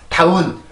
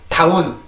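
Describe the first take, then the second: No difference in how they are said.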